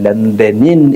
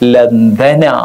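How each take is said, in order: First: The word ends in -in with nunation. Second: The word ends in a plain -a vowel. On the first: The speaker calls it wrong. "ലണ്ടനിൻ എന്ന് നമ്മൾ പറയില്ല" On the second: The speaker calls it right. "അവിടെ ലണ്ടന എന്നാണ്"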